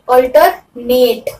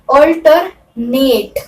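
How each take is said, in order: No difference in how they are said.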